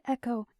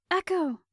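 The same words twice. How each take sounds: First: Said in the usual way. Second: Urgent shout of a name; calling out. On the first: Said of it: "her eyes narrowed at me dangerously". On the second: A narrator's reading. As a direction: call her name to get her moving. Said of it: "Genevieve called".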